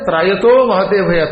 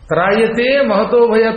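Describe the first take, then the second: First: The first word ends in 'to', the second in 'te'. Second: The first word ends in 'te', the second in 'to'. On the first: The speaker calls it wrong. "అంటాడు" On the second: The speaker calls it right. "త్రాయతే శబ్దం, ఆ క్రియాపదం"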